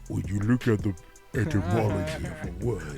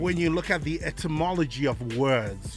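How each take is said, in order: First: It is said in a deep Optimus Prime voice. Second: It is said in a normal voice.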